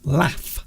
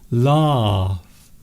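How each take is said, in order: First: The vowel is short and clipped. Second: The vowel is long and open. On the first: "it's shortened" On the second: "The vowels are more open"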